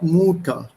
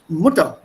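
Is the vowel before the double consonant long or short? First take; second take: long; short. First: The first vowel is said long. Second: The first vowel is said short. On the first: The speaker calls it wrong. "not Mutter" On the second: The speaker calls it right. "It's Mutter"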